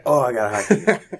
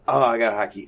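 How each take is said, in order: First: Wife's voice. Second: Himself making excuses. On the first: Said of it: "my wife's like". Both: Retold or imitated.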